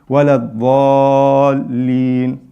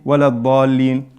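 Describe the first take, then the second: First: The vowel in dallin is held long. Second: The vowel in dallin is cut short. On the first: The speaker calls it right. "You have to say wala dallin four times" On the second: The speaker calls it wrong. "you don't say wala dallin"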